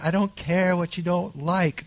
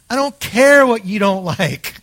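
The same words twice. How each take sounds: First: It is said in a gentle, loving tone. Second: It is said in a blunt, harsh tone. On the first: The speaker calls it right. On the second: The speaker calls it wrong.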